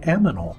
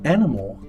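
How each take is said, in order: First: The m sound comes before the n sound. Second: The n sound comes before the m sound.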